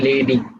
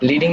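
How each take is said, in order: First: The first vowel sounds like 'eh'. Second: The first vowel sounds like 'ee'. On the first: The speaker calls it right. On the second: The speaker calls it wrong. "লিডিং না"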